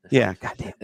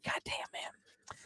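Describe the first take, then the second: First: Said in the usual way. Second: Slow, breath-only whisper; hushed, drawn-out appreciation; whispered awe. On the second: Real, not acted. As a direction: let it out slowly under your breath. Awed reaction to a player pick.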